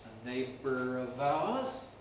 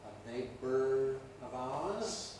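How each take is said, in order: The two takes are said the same way.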